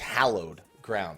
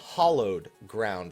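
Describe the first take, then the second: First: The first vowel sounds like the one in 'hallow'. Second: The first vowel sounds like the one in 'hollow'. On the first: The speaker calls it right. "It's hallowed ground" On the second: The speaker calls it wrong. "It's not hollowed ground, like like a hollow"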